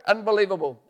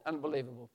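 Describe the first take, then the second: First: Louder, higher exclamation; loud amazed exclamation; excited exclaim. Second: Softer, dropped-down echo; quiet awed echo; hushed repeat. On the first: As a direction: cry it out in amazement. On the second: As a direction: say it again to yourself in awe. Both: Acted. Repeated in wonder.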